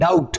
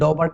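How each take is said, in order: First: The b sound is silent, giving dout. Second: The b sound is pronounced in the middle. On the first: The speaker calls it right. "बी silent हो जाता है" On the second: The speaker calls it wrong. "डॉबट नहीं"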